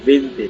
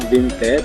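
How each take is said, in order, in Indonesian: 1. Kata itu diucapkan dalam bentuk lisan yang alami. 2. Kata itu diucapkan huruf demi huruf sesuai ejaannya. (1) "tapi bacanya adalah vinte" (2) "tulisnya adalah vinte"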